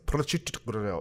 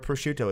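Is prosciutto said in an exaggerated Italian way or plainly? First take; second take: exaggerated Italian; plainly. First: It is overpronounced with an exaggerated Italian accent. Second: It is said plainly, with an ordinary English pronunciation. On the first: Someone else says it this showy way. "you added 19 syllables" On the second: This is how most people say it. "It's never prosciutto"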